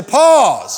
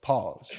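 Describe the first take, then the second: First: Full, high shout to the congregation; louder, higher drawn call. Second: Low, soft one-word command; soft, low, deadpan prompt; calm interjection. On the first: Shown as a demonstration. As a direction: belt it out to rally the crowd. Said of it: "Come on, say it loud". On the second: Acted. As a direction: drop it quietly into a quarrel. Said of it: "one of you look at them and go".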